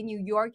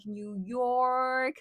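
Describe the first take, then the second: First: Said in the usual way. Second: Exaggerated New York accent. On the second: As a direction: say it like a born New Yorker. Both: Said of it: "the way you say New York in a very New York accent is like".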